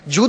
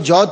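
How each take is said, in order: First: The vowel sounds like a long oo. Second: The vowel sounds like au. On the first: The speaker calls it right. "वो है जूद और सखा" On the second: The speaker calls it wrong. "आप उसको जौद कह रहे हैं"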